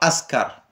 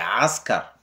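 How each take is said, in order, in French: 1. Le mot commence par une voyelle ouverte simple. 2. Le mot commence par un son guttural, qui ressemble à un bêlement. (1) "c'est pas askar" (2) "comme le bêlement du mouton"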